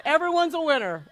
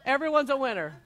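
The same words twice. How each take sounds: First: "Everyone's" punched at the start, falling after; stress on everyone's. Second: Said in the usual way. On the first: Shown as a demonstration. Cheering the group that everyone's a winner, leaning on "Everyone's". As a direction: lean hard on "Everyone's". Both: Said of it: "one for one".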